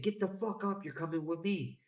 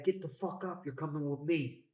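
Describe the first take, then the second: First: Much higher, more insistent mock command; imitating a gunman repeating himself, pitch up high; gunman's repeated order. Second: High-pitched mock command from a gunman; imitating a gunman's order, raised pitch. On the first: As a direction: push the order harder a second time. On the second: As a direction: bark it like a man holding a shotgun.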